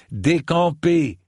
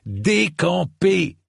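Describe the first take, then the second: First: Raised, drawn-out order, short of a roar; firm dismissal, not yet roaring; firm command. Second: High, long-drawn roar; full-voiced, drawn-out bellowed order; roaring command. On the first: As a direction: call out the order slowly and higher. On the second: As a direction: roar it out, stretching both ends of the word. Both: A narrator's reading. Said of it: "mais en rugissant pour le coup".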